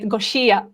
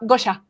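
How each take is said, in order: First: The name is said the way a foreigner says it. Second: The name is said the way its owner says it. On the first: This is how the other person says the name. The speaker calls it wrong. "it's very charming the way you say it" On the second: This is how the name owner says it. The speaker calls it right. "but it's a uh, Gosha"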